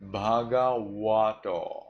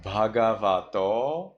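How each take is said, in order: First: Bhagavato with va said as wa; Burmese W reading. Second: Bhagavato with a V in the middle; bhagavato, V sound, rising; standard V reading. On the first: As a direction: slowly say bhagavato with a rounded W. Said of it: "you say bhagavato". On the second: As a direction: say the va of bhagavato with teeth on lip. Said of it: "Instead of bhagavato". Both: Shown as a demonstration.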